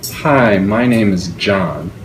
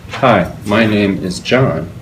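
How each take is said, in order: First: The words flow together without breaks. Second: The words are broken up with hesitations.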